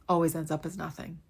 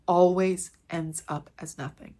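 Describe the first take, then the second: First: Said in the usual way. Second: Slow, each word of Always ends up as nothing weighted; emphatic repeat. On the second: Shown as a demonstration. Repeating the principle so viewers remember, slow and emphatic. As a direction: hammer the point home, slowly.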